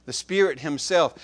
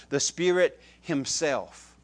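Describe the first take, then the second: First: "The Spirit Himself" brisker, with a hard hit on "Spirit"; firm emphasis. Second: "The Spirit Himself" drawn out slowly, every word weighted; slow down and dwell on "Spirit Himself"; slow emphasis. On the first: Preacher repeating the phrase for emphasis, punched. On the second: Preacher drawing out the Spirit's emphasis, slow and weighted. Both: Shown as a demonstration. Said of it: "That's emphasis".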